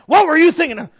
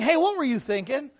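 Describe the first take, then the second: First: It sounds accusing and harsh. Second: It sounds friendly and curious.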